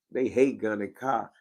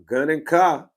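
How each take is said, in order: First: Said in the usual way. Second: Gun and Car called out loud and higher, landing on a falling Car; announced brand call. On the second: Shown as a demonstration. Streamer shouting his brand name to chat, loud and proud. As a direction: belt out the name like a chant. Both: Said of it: "when you say Gun and Car".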